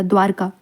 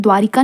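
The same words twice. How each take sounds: First: द्वारका with no i between r and k; correct pronunciation. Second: द्वारिका with a short i before ka; wrong form shown. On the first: Teacher giving the correct form, द्वारका without i. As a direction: say द्वारका as dvaar-kaa. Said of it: "द्वारका ऐसे लिखा जाता है". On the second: Teacher citing the mistake, द्वारिका with an added i. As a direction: say द्वारिका as dvaa-ri-kaa. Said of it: "द्वारिका नहीं लिखा जाता". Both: Shown as a demonstration.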